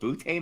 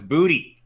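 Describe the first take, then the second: First: The name is said like 'butte', one syllable. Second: The name is said like 'booty', two syllables. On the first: The speaker calls it wrong. "I've been going with Butte Matt forever, thinking it sounded more appropriate" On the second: The speaker calls it right. "Keishon would like us to know it's booty"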